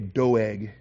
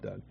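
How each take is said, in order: First: The name has a Hebrew-style pronunciation. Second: The name is pronounced like the English name Doug. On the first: The speaker calls it right. "Doeg is maybe the better Hebrew pronunciation" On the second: The speaker calls it wrong. "I call him Doug just because I like Doug"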